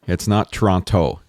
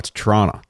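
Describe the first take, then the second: First: It is said the way outsiders say it. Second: It is said the way local people say it. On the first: The speaker is not from the area. The speaker calls it wrong. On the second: The speaker is from the area. The speaker calls it right. "No, it's Toronto"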